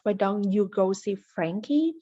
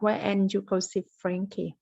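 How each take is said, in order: First: Each word is said fully and separately. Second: 'Why don't you' is squeezed into one short chunk. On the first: "normally we will pronounce" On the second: "level two you will say"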